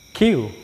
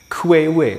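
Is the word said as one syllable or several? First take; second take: one; several. First: The word is said like the letter Q. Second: The word is said with several syllables. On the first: The speaker calls it right. "cara membacanya Q" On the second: The speaker calls it wrong. "bacanya bukan kuewe"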